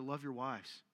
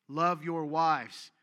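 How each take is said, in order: First: Preacher to men, soft low-voiced plea; soft, low take. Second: LOVE drawn out slow and loud; slow loud emphasis. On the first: Men in church urged gently, soft and low. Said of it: "I don't need, love your wives". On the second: Preacher charges the men, slow loud emphasis. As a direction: lean hard and slow on LOVE. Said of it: "not the way you do". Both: Shown as a demonstration.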